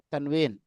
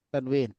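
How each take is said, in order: The two takes are said the same way.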